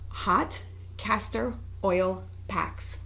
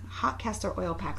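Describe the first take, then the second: First: It is said at a normal, unhurried speed. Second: It is said very quickly, all at once.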